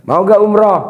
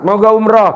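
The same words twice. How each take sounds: First: Hyped call. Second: Louder, higher rallying call; hyped call. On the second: Preacher rallies crowd to answer loudly. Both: Real, not acted. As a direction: pump up the crowd with a shout. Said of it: "Jangan maunya aja, semangat".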